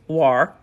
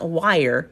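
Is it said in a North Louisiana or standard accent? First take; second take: North Louisiana; standard. First: It is said in a North Louisiana accent. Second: It is said in a standard accent.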